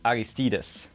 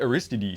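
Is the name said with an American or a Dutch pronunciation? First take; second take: Dutch; American. First: The name is said with a Dutch pronunciation. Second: The name is said with an American pronunciation. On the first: This is how the brand's own people say it. "when I speak Dutch, ... I know it's Aristides" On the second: This is how people in America say it. "all the Americans say Aristides"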